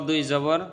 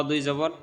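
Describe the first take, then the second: The two takes are said the same way.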